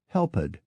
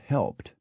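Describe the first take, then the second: First: The word is said as two syllables. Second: The word is said as one syllable. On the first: "with the two syllables clearly enunciated" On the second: "not helped"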